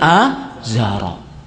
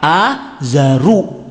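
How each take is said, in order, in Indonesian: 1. Kata ini diakhiri dengan vokal 'a'. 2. Kata ini diakhiri dengan vokal 'u'. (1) "bukan Azara" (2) "kalau dibaca dengan pakai apa? Azaru"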